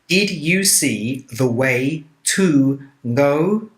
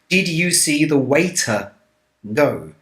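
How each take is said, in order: First: The word to is said fully and separately. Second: The word to is weak and merges with way.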